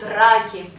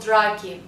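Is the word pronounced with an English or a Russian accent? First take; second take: Russian; English. First: The word is said with a Russian accent. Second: The word is said with an English accent. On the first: "that's how we say it" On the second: "I'm saying it with an English pronounce now"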